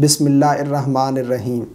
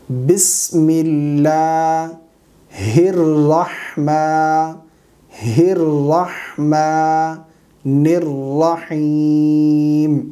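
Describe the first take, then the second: First: الرحمن joined as "er-rahman", with no "hir"; wrong pronunciation. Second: ہر رحمٰ with a sounded h, very slow; corrected recitation. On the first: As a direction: say "bismillah er-rahman" for بسم اللہ الرحمن, vowels unstretched. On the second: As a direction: clearly join "hir" in ہر رحمٰ and hold the long vowels. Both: Shown as a demonstration. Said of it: "یہ غلط ہے".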